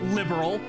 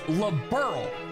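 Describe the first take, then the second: First: The ending is reduced, like the word liberal. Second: The ending is a full 'earl' sound. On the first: The speaker calls it wrong. "it's not liberal" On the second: The speaker calls it right. "Lib, Earl, like a king"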